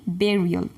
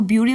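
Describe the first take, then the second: First: Burial said as "BERR-ee-ul"; correct pronunciation. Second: Burial misread as "BYOO-ree-ul"; wrong pronunciation. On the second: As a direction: say burial with a "byoo" first syllable. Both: Shown as a demonstration. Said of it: "इसको burial नहीं पढ़ेंगे".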